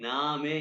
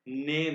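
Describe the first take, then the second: First: The first vowel sounds like 'ah'. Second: The first vowel sounds like 'eh'. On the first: The speaker calls it right. "पहले कहें ना में यानी कि नेम" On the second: The speaker calls it wrong. "इसको आपने नेम नहीं कहना"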